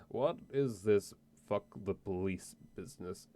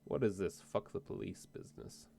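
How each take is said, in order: First: Put-on slow, slurred drunk voice; lightly hammed-up tipsy drawl. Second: Said in the usual way. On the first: Player tries a drunk voice on the barkeep, slow and slurred. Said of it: "How's my drunk voice then". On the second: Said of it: "was that a good drunk".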